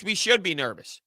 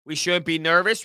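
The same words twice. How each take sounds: First: "should" stressed with a falling end; "We should be nervous" said with a firm fall. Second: "shouldn't" stressed, ending on a rise; "We shouldn't be nervous" lifted at the end. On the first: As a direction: assert "should be nervous" flatly. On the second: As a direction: ask "shouldn't be nervous" as a doubtful question. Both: Shown as a demonstration. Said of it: "Where are you taking that statement?".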